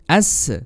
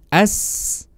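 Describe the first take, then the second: First: The s sound ends with a bouncing release. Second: The s sound flows out long and smooth. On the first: The speaker calls it wrong. "memantulkan huruf sin ketika mati ya. ... Contoh yang salah seperti ini" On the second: The speaker calls it right. "Yang tepat seperti tadi"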